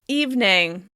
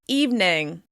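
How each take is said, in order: First: The word is said with two syllables. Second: The same.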